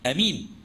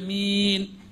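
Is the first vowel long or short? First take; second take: short; long. First: The first vowel is short. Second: The first vowel is long. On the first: "وبالقصر" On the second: "آمين بالمد ... إمالة"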